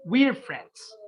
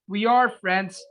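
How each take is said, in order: First: The two words merge into one syllable. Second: Both words are said fully and separately.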